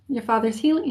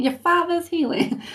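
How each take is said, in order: First: Said in the usual way. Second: Put-on higher-pitched East Coast accent. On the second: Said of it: "almost an East Coast type of accent".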